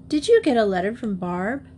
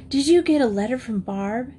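First: Casual, offhand question; feigned indifference. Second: Eager, insistent demand, pitched higher. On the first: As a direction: ask as if it hardly matters. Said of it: "not as indifferent as she tried to seem". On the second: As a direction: press for an answer. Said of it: "she demanded". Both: A narrator's reading.

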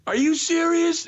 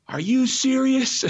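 First: Very high, loud shout; shrill-pitched indignant yell; retold yell. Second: High, loud, slow shouted disbelief; outraged shout of disbelief; retold yell. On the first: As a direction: scream it after the shuttle. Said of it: "And I yell so loud". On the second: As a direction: yell it at a driver who won't stop. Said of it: "and I yell".

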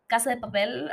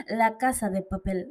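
First: Said in the usual way. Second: Badly faked Spanish accent; attempted Spanish accent. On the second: Shown as a demonstration. Podcaster jokily naming a show for Spaniards, bad Spanish accent. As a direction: have a clumsy go at a Spanish accent. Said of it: "I tried to do a Spanish accent".

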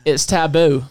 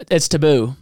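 First: "taboo" with a full first vowel, "TAB-oo"; attempted Australian pronunciation. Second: "taboo" with a reduced first vowel, "tuh-BOO"; attempted Australian pronunciation. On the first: Host giving his name, "taboo" said "tab-boo", mock Australian. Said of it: "as Australians like to s". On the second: Host restating his name, "taboo" said "tuh-BOO", mock Australian. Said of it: "as Australians like to say it".

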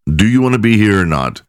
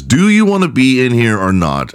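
First: Polite. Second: A mildly pushy judge's question; too aggressive. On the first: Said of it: "He's just politely". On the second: Podcaster retelling the judge's question, mildly aggressive. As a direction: lean on it a bit hard, like a testy judge. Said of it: "I said it too aggressively". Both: Retold or imitated.

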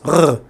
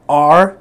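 First: "R" made at the back of the throat, Israeli style; a guttural "R" from the back, as Israelis say it; back Hebrew R. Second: "R" made in the middle of the mouth, said firmly; a clear, louder "R" from mid-mouth; mid Hebrew R. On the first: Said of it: "which is Israel". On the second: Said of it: "that's in the mid". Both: Shown as a demonstration.

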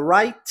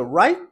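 First: "right" with the T released; "right" as "rite", T fully said; sounded final T. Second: "right" as "rye", cut off before the T; "right" with no released T; swallowed final T. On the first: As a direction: finish "right" on a crisp audible T. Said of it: "ao invés de você pronunciar right". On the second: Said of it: "e engole o T". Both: Shown as a demonstration.

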